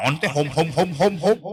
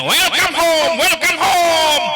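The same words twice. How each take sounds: First: Imitated child's echo. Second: High, drawn-out calling greeting; demonstrated greeting. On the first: Teacher imitating children's muddled answer, low fumbling echo. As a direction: mimic a learner fumbling after the teacher. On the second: Shown as a demonstration. Teacher showing parents how to greet children in English, high calling greeting. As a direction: call it out big for children to copy. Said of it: "Nah, kalau sama anak ini".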